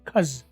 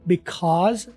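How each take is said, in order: First: The first syllable is dropped, leaving only 'cuz'. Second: The word is said in full with its first syllable. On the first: "बी निकल जाता है, पीछे रह जाता है खज" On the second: "बोलने में इसे क्या करेंगे"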